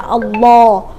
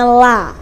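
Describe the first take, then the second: First: The L is heavy and thick. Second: The L is light and thin. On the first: A vowel with an a or u sound comes before it. "bunyinya tafkhim, tebal" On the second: A vowel with an i sound comes before it. "bacaannya jadi tarkik"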